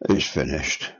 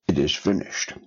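First: It is said in a weak, resigned way. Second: It is said as a strong, triumphant cry. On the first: Everything is over and lost. The speaker calls it wrong. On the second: The work has been accomplished. The speaker calls it right.

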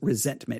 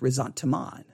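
First: It sounds like the ordinary word resentment. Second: It sounds slightly different from ordinary resentment. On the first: The speaker calls it wrong. "I read it as resentment" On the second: The speaker calls it right. "it's a little different. It's resentment. Okay. Is, I guess, the way you say it"

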